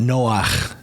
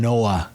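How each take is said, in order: First: The name ends with a harsh throaty sound. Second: The name ends softly on a vowel. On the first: This is the male name. "it's got that guttural at the end of it" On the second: This is the female name. "rather than"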